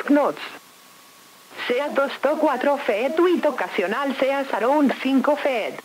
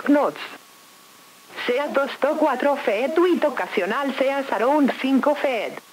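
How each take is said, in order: Both takes have the same delivery.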